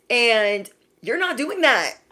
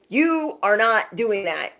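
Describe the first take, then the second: First: Not drawn out and pushed up; stress on not. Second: You pressed at the start, slower; stress on You. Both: Shown as a demonstration.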